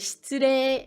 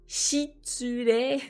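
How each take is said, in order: First: The vowel after 'sh' is nearly silent. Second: The vowel after 'sh' is fully voiced. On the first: The speaker calls it right. "c'est shitsure" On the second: The speaker calls it wrong. "on dit pas shitsure"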